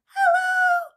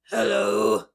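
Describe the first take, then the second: First: It is said in a very high voice. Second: It is said in a very low voice.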